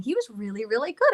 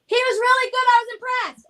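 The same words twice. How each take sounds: First: Said in the usual way. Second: High, loud, proclaimed praise; calling out a compliment. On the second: Real, not acted. Praising son loudly so he can hear, calling out. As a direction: announce it so the absent one hears. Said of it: "I want him to hear me give a compliment".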